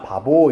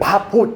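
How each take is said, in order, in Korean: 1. 가운데 b 소리는 유성음이고 부드러워요. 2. 가운데 b 소리는 무성음이고 단단해요. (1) "바보 이렇게 발음하는 게 편하잖아" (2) "강조하기 위해서는 안 울려주는 게 낫지"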